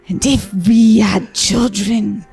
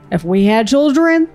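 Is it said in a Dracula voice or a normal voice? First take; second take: Dracula; normal. First: It is said in a Dracula impression. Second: It is said without a Dracula impression.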